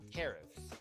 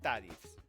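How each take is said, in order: First: The first vowel is an E sound. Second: The first vowel is not an E sound. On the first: The speaker calls it right. "Like an E, like in Eric" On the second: The speaker calls it wrong. "not tarifs"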